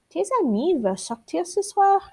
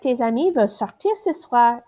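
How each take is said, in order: First: It is said with question intonation. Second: It is said as a plain statement. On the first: It asks a yes or no question. "just changing how you say it makes it a question" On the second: It states a fact. "instead of"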